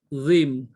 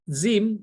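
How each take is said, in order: First: The z is made with the tongue pushed further out. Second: The z is a plain z, tongue behind teeth. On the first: The speaker calls it right. "tapi zim. Lidah kita lebih pergi" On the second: The speaker calls it wrong. "dia bukan uh, zim"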